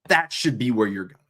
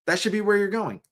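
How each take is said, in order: First: Said in the usual way. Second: Higher, insistent repeat on where; emphatic. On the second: Shown as a demonstration. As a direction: say "where" high and firm. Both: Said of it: "repeated line".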